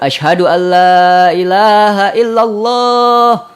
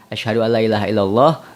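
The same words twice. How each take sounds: First: The phrase is said loudly and strongly. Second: The phrase is said softly and quietly. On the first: It is proclaimed openly to others. "sebelum dikencengkan" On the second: It is said for oneself first. "baca dulu pelan"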